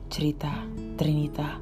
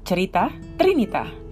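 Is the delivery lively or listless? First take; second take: listless; lively. First: It is said with very low, listless energy. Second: It is said with livelier, more normal energy. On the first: The speaker calls it wrong. "lesu banget" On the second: The speaker calls it right. "Itu oke lah ya"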